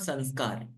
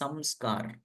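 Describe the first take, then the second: First: The nasal before 'sk' is an 'n' sound. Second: The nasal before 'sk' is an 'm' sound. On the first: The speaker calls it wrong. "It's actually not sanskar" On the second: The speaker calls it right. "it is samskar"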